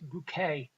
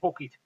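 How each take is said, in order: First: The name sounds like the word bouquet. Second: The name sounds like the word bucket. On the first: A posh way of saying the name. "It's Bouquet" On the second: The ordinary way the name is said. "she won't have it pronounced like that"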